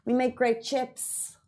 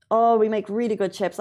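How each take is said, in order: First: Slow and soft, savoring every word; drawn out and quiet, like tasting it. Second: Said in the usual way. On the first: Acted. Boasting about Irish chips.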